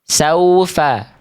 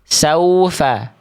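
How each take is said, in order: First: The first vowel is a clear open a. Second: The first vowel is a clear open a.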